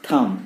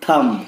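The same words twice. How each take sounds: First: "thumb" as thum, no B; silent B. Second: "thumb" with a B at the end; sounded B, wrong. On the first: Teacher giving the correct form, silent B. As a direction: say "thumb" ending on M. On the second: Teacher showing what not to say, sounded B. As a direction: say "thumb" as thum-b, mistakenly. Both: Shown as a demonstration.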